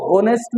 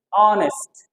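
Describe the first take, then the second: First: होनेस्ट with a sounded h at the start; wrong pronunciation. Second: ऑनेस्ट with a silent h, opening on the vowel "o"; correct pronunciation. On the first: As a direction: voice the h in होनेस्ट as the common mistake. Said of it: "इसको होनेस्ट नहीं बोलते हैं". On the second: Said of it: "नहीं बोलते हैं". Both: Shown as a demonstration.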